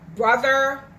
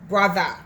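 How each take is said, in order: First: It is said with standard English pronunciation. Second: It is said in Jamaican patois, ending in 'a'.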